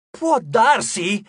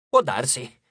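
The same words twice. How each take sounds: First: Slow, louder, higher disbelieving repeat; incredulous echo. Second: A low, offhand maybe; indifferent shrug. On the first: Frank echoes the host's shrug in loud disbelief. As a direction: throw the words back in outrage. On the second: Host shrugs off Frank's plea, low and offhand. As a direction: toss it away without caring. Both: Acted.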